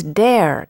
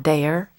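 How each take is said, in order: First: "dare" in one clean syllable; corrected Northern vowel. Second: "dare" drawn toward two syllables, day-er; Southern vowel. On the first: Shown as a demonstration. Mother correcting daughter, "dare" in one Northern syllable. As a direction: say "dare" without any Southern glide. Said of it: "not dare". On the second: Retold or imitated. Mother quoting the mistake, "dare" with a Southern glide. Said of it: "problem with me was my Southern accent".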